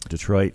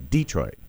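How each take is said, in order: First: The name is said in the usual standard way. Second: The name is said in a local regional way.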